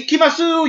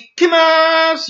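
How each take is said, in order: First: The final u vowel is clearly pronounced. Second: The word ends on s with no vowel. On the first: The speaker calls it wrong. "you don't say ikimasu" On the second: The speaker calls it right. "You just say ikimas. You don't add the U at the end"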